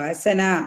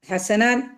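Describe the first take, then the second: First: The word ends with a long vowel. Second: The word ends with an n sound. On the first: The reader stops at this word. "ഹസന എന്ന് പറഞ്ഞിട്ടാണ് ഇതിനെ ഉത്സവപ്പെടുക" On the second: The word is joined to what follows. "കഴിഞ്ഞിട്ടുള്ള തൻവീൻ ആയിരുന്നല്ലോ"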